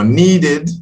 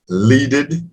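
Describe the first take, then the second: First: The word begins with an N sound. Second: The word begins with an L sound. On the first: The speaker calls it right. "now needed" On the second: The speaker calls it wrong. "your L's and N's"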